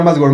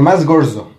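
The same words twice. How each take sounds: First: Said in the usual way. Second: "gordo" dicho con s, como "gorso"; pronunciación imitada de "gordo". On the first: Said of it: "O sea, ni siquiera". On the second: Retold or imitated. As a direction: cambia la d de "gordo" por una s. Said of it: "ni siquiera más gordo". ("gordo" pronunciado "gorso", en imitación)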